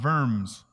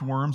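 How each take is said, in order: First: It is said with the German pronunciation. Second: It is said like the English word worms. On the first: The speaker calls it right. "It's a German city or German town pronounced Worms" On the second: The speaker calls it wrong. "worms isn't really pronounced worms unless you're from Red Bank, South Carolina"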